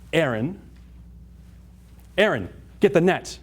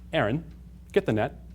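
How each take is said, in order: First: It is said urgently, with emotion. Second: It is said calmly, without emotion.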